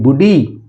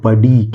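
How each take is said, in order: First: The first vowel sounds like oo. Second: The first vowel sounds like uh. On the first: The speaker calls it wrong. "नहीं बुढ़ी" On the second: The speaker calls it right. "नहीं ये लिखा हुआ है बडी"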